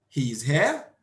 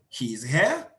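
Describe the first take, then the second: The two takes are said the same way.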